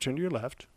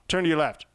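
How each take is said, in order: First: It is said in a soft, neutral tone. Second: It is said in a harsh, curt tone. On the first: The request sounds polite and relaxed. The speaker calls it right. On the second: The request sounds like a blunt command. The speaker calls it wrong.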